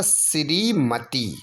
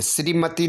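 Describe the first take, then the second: First: श्रीमती slow with a held tee; long final ee. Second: श्रीमती with a brief ti; short final i. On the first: Teacher giving the correction, श्रीमती slow with long tee. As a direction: stretch the end of श्रीमती. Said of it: "बड़ी की". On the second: Teacher showing the error, श्रीमती with short ti. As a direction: clip the end of श्रीमती. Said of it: "नहीं होगा". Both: Shown as a demonstration.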